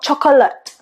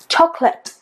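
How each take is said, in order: First: The middle syllable is pronounced. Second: The middle syllable is dropped. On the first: The speaker calls it wrong. "not chocolate" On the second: The speaker calls it right. "chocolate, not chocolate"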